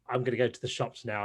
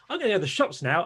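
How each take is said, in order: First: It is said calmly with ordinary low energy. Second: It is said with much more energy and enthusiasm. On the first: It is casual talk with a friend. "if I was talking to a friend" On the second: It is a performance for a video audience. "if I was doing it in a video, I'd be much more"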